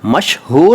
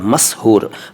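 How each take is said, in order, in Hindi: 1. दूसरा व्यंजन sh ध्वनि है। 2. दूसरा व्यंजन s ध्वनि है। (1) "श और स का बड़ा महत्व है।" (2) "श और स का बड़ा महत्व है।"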